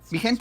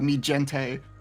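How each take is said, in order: First: It is said with a native Spanish accent. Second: It is said with a heavy English accent. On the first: The speaker calls it right. "is how you're supposed to pronounce it" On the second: The speaker calls it wrong. "the joke is that I'm bad at Spanish"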